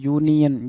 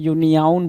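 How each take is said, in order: First: The word ends with a plain 'yun' sound. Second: The word ends with an extra 'aun' sound. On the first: The speaker calls it right. "यूनियन बोलना चाहिए" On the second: The speaker calls it wrong. "यूनियन बोलने की कोशिश है, यूनियाउन बोल रहा है"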